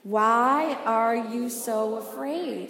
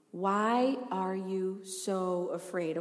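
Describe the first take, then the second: First: Slow, fuller call for the room to repeat; "Why are you so afraid?" slow and stronger, with the congregation; call and response. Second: Slow, soft lead-in line; "Why are you so afraid?" said slowly and quietly, as a first prompt. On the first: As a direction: say "Why are you so afraid?" slowly and firmly so everyone joins in. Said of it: "Let's say it with me". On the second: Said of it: "Say it with me". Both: Shown as a demonstration.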